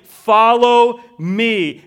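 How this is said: The stress is on the word follow.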